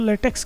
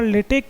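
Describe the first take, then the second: First: The word ends with a ks sound. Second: The word ends with a plain k sound. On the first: The speaker calls it wrong. "इसको लेटेक्स नहीं बोलते" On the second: The speaker calls it right. "उच्चारण क ही होता है"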